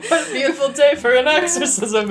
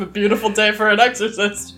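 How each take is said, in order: First: Mister Rogers voice. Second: Said in the usual way. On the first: Pretend. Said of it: "like, Mister Rogers' Neighborhood, but The Exorcist". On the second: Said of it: "like, Mister Rogers' Neighborhood".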